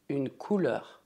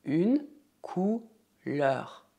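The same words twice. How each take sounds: First: Said in the usual way. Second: Drawn out slowly for the learner; slow repeat-after-me. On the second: Shown as a demonstration. Teacher modelling slowly for students to repeat. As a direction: stretch every sound so they can copy. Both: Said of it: "Repita comigo".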